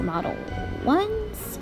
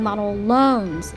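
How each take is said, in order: First: The second word starts with a W sound. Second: The second word starts with an L sound. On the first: The speaker calls it right. "but it's model ones" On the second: The speaker calls it wrong. "I keep messing up and saying model loans"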